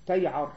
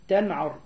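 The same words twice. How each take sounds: First: "تيعر" with a y glide before the ayn; corrected word. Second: "تنعر" with a clear n before the ayn; misread word. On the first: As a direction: sound out "تيعر" with ya in place of nun. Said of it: "هو بالياء". (نطق "تيعر" بالياء) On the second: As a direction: sound out "تنعر" with nun. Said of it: "يعني بالنون". (نطق "تنعر" بالنون) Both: Shown as a demonstration.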